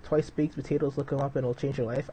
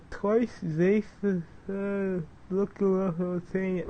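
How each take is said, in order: First: Said in the usual way. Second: Mumbled and higher, like a numb swollen mouth after surgery; slurred swollen-mouth speech. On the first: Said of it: "that's how I sounded". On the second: Retold or imitated. Vlogger imitating how he sounded after wisdom teeth surgery, higher and mushy. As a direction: talk as if your cheeks are packed with gauze. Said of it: "Like, that's how I sounded".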